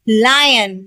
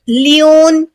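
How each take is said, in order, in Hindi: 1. पहला स्वर 'eye' जैसा बोला जाता है। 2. पहला स्वर 'ee' जैसा बोला जाता है। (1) "सही प्रोनाउंसिएशन क्या है" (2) "बहुत से लोग लियोन ... पढ़ते हैं, तो दोनों बिल्कुल गलत है"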